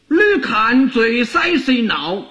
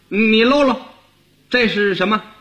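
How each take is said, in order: First: It is spoken in Fuzhou dialect. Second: It is spoken in Beijing dialect. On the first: "那福建话这句话怎么说呢" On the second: "你要用北京话说就跟这不一样了"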